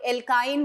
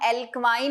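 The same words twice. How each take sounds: First: एल्काइन said el-kain, plain k and a long ai like the letter I; the right el-kain sound for एल्काइन; correct pronunciation. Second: एल्क्वाइन said el-kwain, with a w after the k; wrong pronunciation. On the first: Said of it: "एल्काइन बोलते हैं". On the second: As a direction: say एल्क्वाइन with a kw sound in the middle, the way it is not meant to be said. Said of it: "हम एल्क्वाइन नहीं बोलते हैं". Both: Shown as a demonstration.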